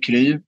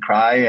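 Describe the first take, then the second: First: It is said the Swedish way, not like 'cry'. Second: It sounds like the English word 'cry'. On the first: This is how the company says its name. "so we say Kry" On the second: This is how native English speakers say the name. "our English native speakers are saying cry"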